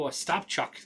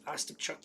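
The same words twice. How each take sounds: First: Ostapchuk stressed on STAP; stress on second syllable. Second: Ostapchuk stressed on the opening O; stress on first syllable. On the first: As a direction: say Ostapchuk as os-TAP-chuk. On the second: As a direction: say Ostapchuk as OS-tap-chuk. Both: Real, not acted. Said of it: "wrong emphasis on the wrong syllable".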